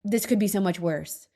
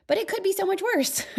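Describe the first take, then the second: First: Lower, grudging mock of the gloomy type; a lightly mocking gloomy voice; mock doom-sayer. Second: Higher, earnest stress on be; really mean that it could be worse; an earnest higher lift on could be so much worse; sincere emphasis. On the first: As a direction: send up the person who always says this. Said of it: "I'm not a". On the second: Real, not acted.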